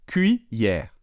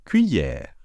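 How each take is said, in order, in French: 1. La première syllabe se prononce 'kwee'. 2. La première syllabe se prononce 'kwee'.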